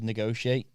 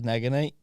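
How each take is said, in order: First: The middle is said as 'go-shee'. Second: The middle is said as 'go-n'. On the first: The speaker calls it right. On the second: The speaker calls it wrong.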